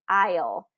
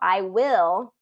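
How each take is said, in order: First: It is said as one contracted syllable. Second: It is said as two separate full words. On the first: "the contraction is I'll" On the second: "I will is the full form"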